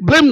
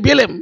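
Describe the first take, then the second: First: The b and l sounds are joined together. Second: An extra vowel splits the b and l sounds. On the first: "ব্লেম নয়" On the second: "ব্লেমটা উচ্চারণ করতে, বেলেম বেলেম"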